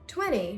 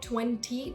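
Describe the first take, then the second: First: The T after the N is not pronounced. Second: The T after the N is clearly pronounced. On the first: The speaker calls it right. "you're not going to pronounce it" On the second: The speaker calls it wrong. "not twenty, ta ta ta, no"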